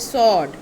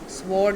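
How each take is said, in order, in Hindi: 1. इस शब्द में s के बाद कोई w नहीं होता। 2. इस शब्द में s के बाद w होता है। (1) "इट इज सॉड" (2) "स्वॉर्ड नहीं"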